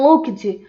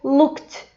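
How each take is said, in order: First: The ending is said as written, 'ed'. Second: The ending is a plain T sound. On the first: The speaker calls it wrong. "nossa tendência natural" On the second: The speaker calls it right. "vai ter um som de T"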